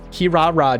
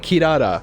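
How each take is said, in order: First: The R sounds are English-style R sounds. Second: The R sounds are quick tongue taps. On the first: The speaker calls it wrong. "Kirara just sounds weird" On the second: The speaker calls it right. "I have to say the Japanese R pronunciation"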